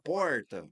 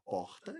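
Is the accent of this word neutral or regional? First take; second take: regional; neutral. First: It is said with a regional Varginha accent. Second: It is said with a neutral, accentless pronunciation. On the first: It reveals where the speaker comes from. "vai entregar que eu sou de Varginha" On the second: It sounds general and fits a national audience. "Então eu não vou falar, eu vou falar porta"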